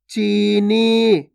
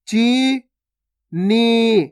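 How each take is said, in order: First: चीनी joined, both vowels long; joined, stretched word. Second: चीनी split as chee, pause, nee; syllable by syllable. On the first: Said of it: "खींच के पढ़ना है". (चीनी मिलाकर, खींचकर) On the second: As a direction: slowly sound out चीनी in two held syllables. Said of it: "direct मात्रा का उच्चारण करके पढ़ेंगे". (चीनी को तोड़कर, ची... नी) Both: Shown as a demonstration.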